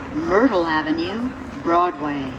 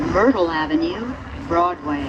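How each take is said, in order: Both takes have the same delivery.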